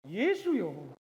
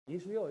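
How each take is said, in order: First: It is said earnestly, as a heartfelt plea. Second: It is said casually, without feeling.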